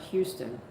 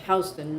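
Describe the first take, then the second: First: Said the way the Texas city is said. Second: Said the way the New York street is said. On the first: The speaker calls it wrong. "not Houston" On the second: The speaker calls it right. "there's a street called Houston Street. You pronounce it Houston"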